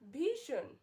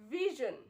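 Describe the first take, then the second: First: The middle consonant lacks a buzzing z sound. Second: The middle consonant has a buzzing z sound. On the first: The speaker calls it wrong. "This is wrong pronunciation" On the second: The speaker calls it right. "There is a z sound here"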